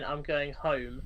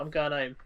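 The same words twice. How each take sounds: First: The h at the start of home is pronounced. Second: The h at the start of home is dropped. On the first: "instead of saying" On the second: "drop the letter H all the time"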